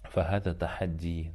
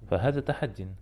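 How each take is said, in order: First: The last word ends in a plain vowel. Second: The last word ends with an n sound. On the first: The speaker calls it wrong. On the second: The speaker calls it right.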